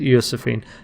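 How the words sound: The name is said with Swedish-sounding pronunciation.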